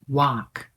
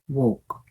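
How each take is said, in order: First: The word walk has an American vowel. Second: The word walk has a British-style vowel. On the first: The speaker calls it right. "the American accent for walk is walk" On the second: The speaker calls it wrong. "not walk. ... walk is more of a British accent"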